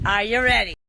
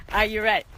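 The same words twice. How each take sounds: First: Louder again, stress on ready; bigger hype. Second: Asking her viewers loudly, falling at the end; hype question. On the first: Vlogger hyping viewers before wrap-up: louder, punchier repeat. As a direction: push the crowd harder, leaning on ready. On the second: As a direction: rev them up. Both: Real, not acted. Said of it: "hyping up viewers".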